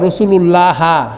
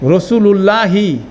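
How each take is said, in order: First: The word ends with a short a vowel. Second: The word ends with a short i vowel. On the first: The speaker calls it wrong. "এটার উচ্চারণ এভাবে হবে না" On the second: The speaker calls it right. "পুরা হরকত উচ্চারণ করলে কি হবে?"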